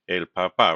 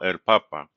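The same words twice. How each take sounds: First: The stress is on the last syllable of papa. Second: The stress is on the first syllable of papa. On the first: It means father. "that accent mark tells us el papa" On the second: It means the Pope. "So the stress is still on the second to last syllable"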